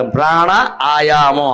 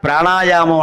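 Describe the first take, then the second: First: ప్రాణ, ఆయామం slowly as two separate words; word split in two. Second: Said in the usual way. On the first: Shown as a demonstration. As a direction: draw out ప్రాణ, then say ఆయామం apart. (ప్రాణ, ఆయామం అని విడదీసి నెమ్మదిగా)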